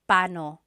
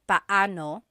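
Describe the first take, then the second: First: The two middle vowels merge into one. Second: The two middle vowels are said separately. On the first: "when speaking quickly, Filipinos just say pano" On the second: "When there are two vowels together, you say them separately"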